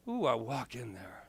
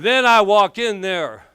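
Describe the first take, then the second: First: Hushed retelling. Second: Loud dramatic entrance. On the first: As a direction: drop low and soft on a sly ooh. Same words, now hushed. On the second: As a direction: belt it out high and loud, like a big stage entrance. Dramatic entrance, told loudly. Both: Retold or imitated.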